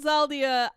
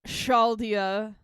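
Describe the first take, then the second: First: The name begins with a z sound. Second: The name begins with an sh sound. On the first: "I'm saying Zaldia. I feel like X H together is a Z" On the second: "you're saying it's a sh"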